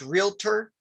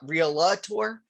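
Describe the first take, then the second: First: It is said in two syllables. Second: An extra vowel comes between L and T. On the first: The speaker calls it right. "it's pronounced realtor" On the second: The speaker calls it wrong. "not realtor ... a common um, mispronunciation"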